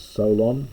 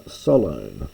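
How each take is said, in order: First: Said in the usual way. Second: Solon said the ancient Greek way; Greek pronunciation. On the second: Shown as a demonstration. Lecturer reading Herodotus to students, Solon in Greek pronunciation. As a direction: give Solon its Greek vowels, not the English ones. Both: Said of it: "we normally pronounce it as Solon".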